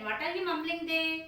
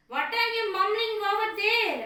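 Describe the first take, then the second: First: Said in the usual way. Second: Put-on raised voice of an old mother calling out; loud old mother. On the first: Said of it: "old woman asked again and again". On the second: A narrator's reading. Old mother shouting at her son from the next room. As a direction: call out loudly, suspicious. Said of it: "Amma said loudly".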